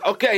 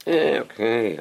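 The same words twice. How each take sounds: First: Put-on high, ready "okay" of a willing kid; acted eager compliance; eager child. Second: Acted unhurried, grudging "okay"; mock half-hearted compliance; reluctant child. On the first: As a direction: agree at once, pitched up. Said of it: "he runs to get the glass of water". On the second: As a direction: agree with no urge to move. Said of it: "The third one".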